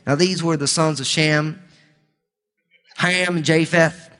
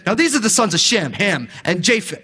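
First: It is said in a Southern US accent. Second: It is said in a New Jersey accent.

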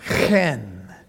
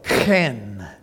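First: It starts with a raspy throat sound. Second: The same.

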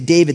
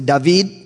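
First: The stress is on the first syllable. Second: The stress is on the last syllable. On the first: This is the American way of saying it. "We say David, the accent's on the front" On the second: This is the Hebrew way of saying it. "They would say David"

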